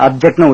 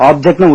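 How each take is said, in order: First: அப்ஜெக்ட் opening with a short "ub"; short first vowel. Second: ஆப்ஜெக்ட் opening with a long, open "aab"; open first vowel. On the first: Teacher showing learners the verb's pronunciation, short "ub" in அப்ஜெக்ட். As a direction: say அப்ஜெக்ட்னு with a brief "uh" at the start. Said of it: "அப்ஜெக்ட்னு உச்சரிக்கலாம்". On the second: Teacher showing learners the noun's pronunciation, open "aab" in ஆப்ஜெக்ட். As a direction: say ஆப்ஜெக்ட்னு with a full "aa" at the start. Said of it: "ஆப்ஜெக்ட்னு உச்சரிக்கலாம்". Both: Shown as a demonstration.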